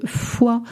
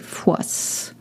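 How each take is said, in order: First: The final s sound is silent. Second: The final s sound is pronounced. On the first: The speaker calls it right. "it's combien de fois. You don't uh, pronounce the consonants at the end" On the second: The speaker calls it wrong. "Please do not say fois"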